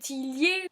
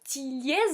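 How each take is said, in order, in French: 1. Le nom finit sans son z. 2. Le nom finit par un z prononcé.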